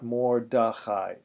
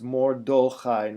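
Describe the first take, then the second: First: The second vowel is an open a sound. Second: The second vowel is a closed o sound. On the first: The speaker calls it wrong. "not mordachai" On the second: The speaker calls it right. "It's mordochai. Okay, it's a it's a closed vowel"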